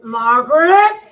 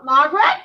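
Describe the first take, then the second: First: Louder searching call, rising at the end. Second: Loud searching call, rising at the end. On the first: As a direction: call her louder, getting worried. Searching the room, calling louder. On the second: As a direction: call out to find her. Searching the room for her. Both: Retold or imitated.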